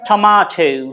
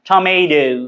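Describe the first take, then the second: First: It is said with a British accent. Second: It is said with an American accent. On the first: "ব্রিটিশটা এটাকে বলে টমাটো" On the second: "আমেরিকানরা এটা কি উচ্চারণ করে জানেন?"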